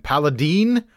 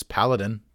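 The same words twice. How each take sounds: First: "Paladine" ending in a rising deen; pal-a-DEEN, long ee at the end; variant pronunciation. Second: "Paladin" with a light, short last syllable; PAL-a-din, stress up front; correct pronunciation. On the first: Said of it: "they've pronounced it". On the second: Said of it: "It is Paladin". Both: Shown as a demonstration.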